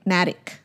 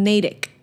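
First: Natick with a short A as in "cat"; Natick as "Nat-ick". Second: Natick with a long A; Natick as "Nay-dick". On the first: Second guess at the town's name, Natick as "NAT-ick". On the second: Unsure of the town's name, Natick as "NAY-tick". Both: Shown as a demonstration. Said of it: "I don't know. I'm just going by my pictures".

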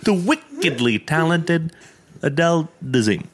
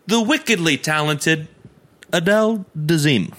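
First: Awkward mispronounced intro; stumbling announcer. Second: Travolta impression. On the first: Retold or imitated. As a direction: read it like a botched teleprompter. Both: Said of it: "He goes".

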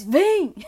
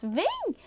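First: "vem" barked loud and hard; harsh command. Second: "vem" sung high and light, inviting; friendly call. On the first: Trainer contrasts tones of voice for the dog, loud harsh "vem". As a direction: snap "vem" loud like a scolding. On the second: Trainer contrasts tones of voice for the dog, high friendly "vem". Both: Shown as a demonstration. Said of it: "a diferença de um tom de voz".

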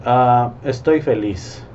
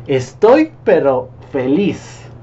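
First: Said in the usual way. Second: "pero" pushed up, louder and slow; stress on pero. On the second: Shown as a demonstration. Coach showing how "pero" lifts the feeling, punched. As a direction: lean hard on "pero", stretched out. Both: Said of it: "ahí le aumenté la palabra pero".

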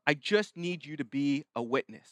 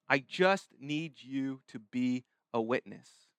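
First: Said in the usual way. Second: Low, slow, measured request; slow, deliberate. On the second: Acted. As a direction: space out "I just need you", softly and weightily. Repeats Jesus's request for emphasis.

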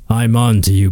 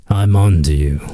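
First: Said in the usual way. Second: Mock menacing. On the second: Comedian repeating his warning to Pepsi, mock sinister and much lower. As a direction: growl "I'm on to you" like a movie villain's threat.

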